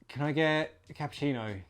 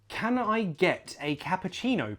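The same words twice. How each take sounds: First: The accent sounds loose, lazy and natural. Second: The accent sounds careful, stiff and unnatural. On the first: The accent has been used every day. The speaker calls it right. "you get lazy. Then it becomes unique to you" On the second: The accent is new and unpractised. The speaker calls it wrong. "it has the characteristics of a British accent, but doesn't feel real yet"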